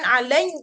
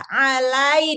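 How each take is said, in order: First: The sound resonates through the nose. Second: The sound resonates only in the mouth. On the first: The speaker calls it wrong. "nanti di hidung dia" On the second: The speaker calls it right. "di dalam mulut"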